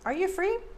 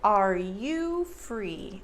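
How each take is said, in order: First: The word you is reduced to ya. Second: The word you is said fully, as you. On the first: It sounds more casual and natural. "Americans reduce you to ya" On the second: It sounds more formal. "That formal you"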